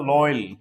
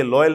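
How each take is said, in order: First: लॉयल said as "loil", one syllable with an oi glide; the right way: लॉयल as "loil"; लॉयल pronounced "loil"; correct pronunciation. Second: लॉयल said as "loyal" in two syllables; the common wrong way: लॉयल as "loyal"; लॉयल pronounced "loyal" like most people say it; wrong pronunciation. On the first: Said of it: "ये होता है लॉयल". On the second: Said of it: "ये लॉयल नहीं होता है". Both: Shown as a demonstration.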